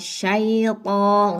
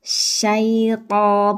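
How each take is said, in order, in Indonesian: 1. Bunyi sh diucapkan dengan bibir membulat. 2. Bunyi sh diucapkan dengan bibir tidak membulat. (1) "bukan syaiton" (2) "huruf shin tidak perlu membulatkan kedua bibir"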